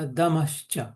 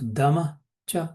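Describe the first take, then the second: First: The two words are joined with a sh sound. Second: The two words are said separately. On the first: "दमः च का दमश्च" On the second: "दमः च का"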